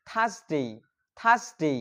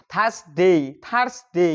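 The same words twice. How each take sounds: First: "থার্সডে" as "thas-dei", silent r; correct pronunciation. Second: "থার্সডে" as "thars-de", r allowed to sound; wrong old pronunciation. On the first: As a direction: say "থার্সডে" without r, gliding into "dei". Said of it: "আসলে এটার সঠিক উচ্চারণ হচ্ছে". ("থার্সডে"-র সঠিক উচ্চারণ, "থাস-ডেই") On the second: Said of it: "এরপর উচ্চারণ করতাম". ("থার্সডে"-র ভুল উচ্চারণ, র সহ) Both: Shown as a demonstration.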